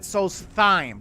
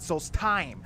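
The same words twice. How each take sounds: First: The middle is said with a soft th sound. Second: The middle is said with a hard t sound. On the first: "he pronounces it Solstheim" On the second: "they say the time, the hard time"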